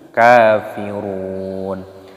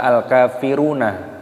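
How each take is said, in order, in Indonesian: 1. Kata ini berakhir dengan konsonan mati di akhir. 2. Kata ini berakhir dengan vokal tambahan di akhir. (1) "tapi kafirun" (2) "jangan dibaca al-kafiruna"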